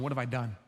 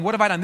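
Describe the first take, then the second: First: Low, very soft regret; whisper-soft, coming to your senses; hushed realization; stunned remorse. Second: Said in the usual way. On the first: Acted. Snapping out of insanity.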